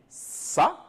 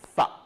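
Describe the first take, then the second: First: It starts with a hissing s sound. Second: It starts with a soft th sound. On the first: The speaker calls it wrong. "on ne va pas dire ça" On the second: The speaker calls it right. "mettre la langue entre les dents"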